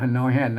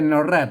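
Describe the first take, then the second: First: The second syllable begins with an h sound. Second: The second syllable begins with an r sound. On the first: This is the Northern Thai (Kham Mueang) reading. The speaker calls it right. "ถ้าเป็นเมืองมันออกเสียงฮอ" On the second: This is the Central Thai reading. The speaker calls it wrong. "ไม่ใช่นอแรดนะครับ แรดนั่นมันไทย"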